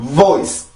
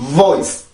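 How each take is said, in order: Both takes have the same delivery.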